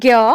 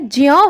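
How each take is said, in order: First: It is said the everyday colloquial way. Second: It is said as a j joined to a nasal. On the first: The speaker calls it wrong. "जो हम कहते हैं ज्ञ" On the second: The speaker calls it right. "लेकिन वास्तव में यह ज्यों होता है"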